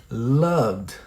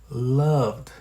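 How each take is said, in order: The two takes are said the same way.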